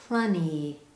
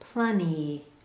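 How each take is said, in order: First: The T sound is dropped. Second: The T sound is dropped.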